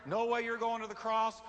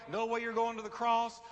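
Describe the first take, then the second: No difference in how they are said.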